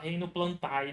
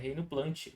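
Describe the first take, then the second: First: The ending is said as two vowels, a-e. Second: The ending is said as one i-like vowel. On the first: The speaker calls it wrong. "a gente não fala reino plantae" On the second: The speaker calls it right. "O A e o E tem som de I aqui"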